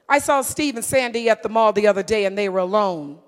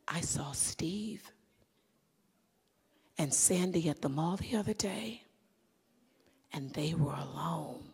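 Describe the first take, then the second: First: It is said in a plain, matter-of-fact tone. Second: It is said in a knowing, insinuating tone. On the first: Nothing unusual happened. "Just from the tone and the words, you're looking like, and so what?" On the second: Something improper was going on. "But if I did this"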